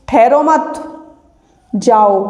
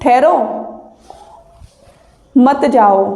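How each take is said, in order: First: There is no pause right after the first word. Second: There is a pause right after the first word. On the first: "अब यहाँ comma लग गया तो इतना आप बोल के देखिए" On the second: "अब ये कह रहा है ठहरो, ऐसे कह रहा है ना"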